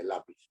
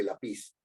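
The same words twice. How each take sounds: First: Lápiz correctly stressed LÁ-pis; stress on first syllable. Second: Lápiz mispronounced as la-PIS, stress on the final syllable; wrong stress on last syllable. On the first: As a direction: put the weight on LÁ in lápiz. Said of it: "La fuerza de voz está en la". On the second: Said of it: "no está en pis. Nadie dice lápiz". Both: Shown as a demonstration.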